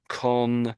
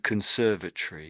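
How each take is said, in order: First: The ending is said the American way, 'tory'. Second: The ending is said the British way, 'tree'.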